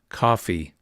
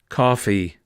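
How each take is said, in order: Both takes have the same delivery.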